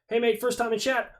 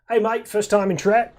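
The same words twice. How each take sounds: First: It is read in the speaker's ordinary accent. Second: It is read in a put-on Australian accent.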